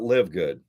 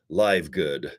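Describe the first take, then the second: First: The first word rhymes with 'give'. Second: The first word rhymes with 'five'. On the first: The speaker calls it right. "how about live good?" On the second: The speaker calls it wrong. "I kept saying live"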